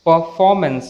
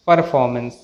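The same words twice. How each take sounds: First: Performance as "puh-faw-mence"; silent r. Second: Performance with an r before f; sounded r. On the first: Teacher models the correct word, r silent. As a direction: drop the r in Performance. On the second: Teacher shows the mistake, r sounded. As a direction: pronounce the first r in performance, lower pitch. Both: Shown as a demonstration.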